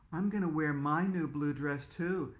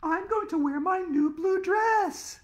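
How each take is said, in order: First: Said in the usual way. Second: Put-on high, slow sing-song girl; prim little girl showing off; prissy girl voice. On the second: Girl character voiced in story.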